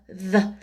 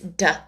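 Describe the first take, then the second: First: It is said with an American English accent. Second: It is said with a Japanese accent.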